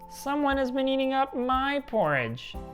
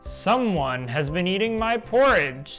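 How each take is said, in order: First: It is said in a wee small voice. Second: It is said in a great big voice.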